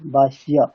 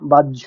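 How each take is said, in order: First: The middle consonant is an h followed by ya. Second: The middle consonant sounds like a doubled jh. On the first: This is how it is read in Sanskrit. The speaker calls it right. "যেমনটা হয়ের উচ্চারণ হবে তেমনটাই হবে" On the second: This is how it is read in Bengali. The speaker calls it wrong. "ঝয় জাফাটা যেমন তেমন উচ্চারণ করি, বা- বাহ্য এরকম"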